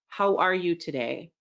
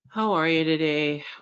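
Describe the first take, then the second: First: It is said in a warm, friendly way. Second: It is said in a flat, unfriendly way.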